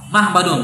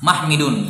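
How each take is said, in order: First: The vowel before the d is a. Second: The vowel before the d is i. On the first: It follows the regular rule-based pattern. "secara kias seharusnya apa?" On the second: It is the form heard from native usage.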